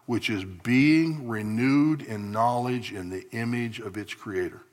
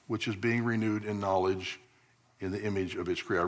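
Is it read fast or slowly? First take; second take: slowly; fast. First: It is read slowly. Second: It is read fast.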